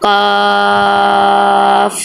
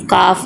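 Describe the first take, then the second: First: काफ with its aa drawn out very long; elongated madd. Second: Said in the usual way. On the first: Shown as a demonstration. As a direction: hold the vowel of काफ steady, then release into f. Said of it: "ज़्यादा लंबा करते हैं".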